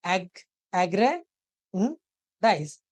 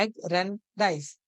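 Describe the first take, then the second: First: एग्रेंडाइज stretched out as एग - रेन - डाइज; very slow syllables. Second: एग्रेंडाइज said slowly as a whole word; slow summary demo. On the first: Teacher splitting एग्रेंडाइज into three syllables, very slow. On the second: Teacher rejoining एग्रेंडाइज for students, slow. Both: Shown as a demonstration. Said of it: "एग अलग है, रैन अलग है, डाइज अलग है".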